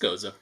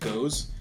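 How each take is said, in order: First: The name is said as two syllables. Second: The name is said as one syllable. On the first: The speaker calls it right. "It's goza" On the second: The speaker calls it wrong. "I used to pronounce it goes"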